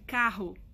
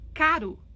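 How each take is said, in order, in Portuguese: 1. O r é dito com sotaque padrão. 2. O r é dito com sotaque regional do sul. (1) "ao invés de carro" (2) "eles falam caro"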